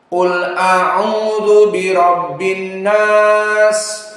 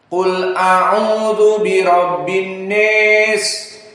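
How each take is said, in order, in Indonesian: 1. Vokal dalam 'nas' adalah 'a' terbuka biasa. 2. Vokal dalam 'nas' sangat condong ke 'e'. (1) "al jumhur kulluhum yaqra bil fathah" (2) "maka dibaca dengan al-imalah al-kubra"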